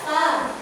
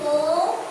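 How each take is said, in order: First: The vowel is said with the mouth open. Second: The vowel is said with rounded, pushed-out lips. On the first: The speaker calls it right. "nah buka fa" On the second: The speaker calls it wrong. "Jadi po"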